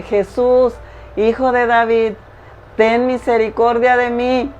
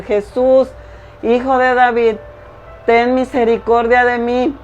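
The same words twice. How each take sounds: First: A raised plea, pitched higher, calling over a crowd; crying out to Jesus. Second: A higher, stronger plea, pushing harder over the crowd; crying out again. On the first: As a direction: call out to him for mercy from the roadside. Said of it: "Él comienza a gritarle a Jesús". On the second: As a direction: call out again, more desperately. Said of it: "él gritaba y gritaba". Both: Acted.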